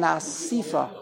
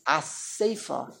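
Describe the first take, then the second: First: "Asifa" with an ee in the middle; wrong pronunciation. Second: "a Sefer" said as a-SAY-fa; an ay sound in the middle of "a Sefer"; correct pronunciation. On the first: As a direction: say "Asifa" as a-SEE-fa. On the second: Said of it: "the correct word is". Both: Shown as a demonstration.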